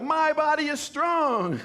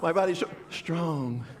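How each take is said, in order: First: It is said with confident conviction. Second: It is said haltingly, without conviction.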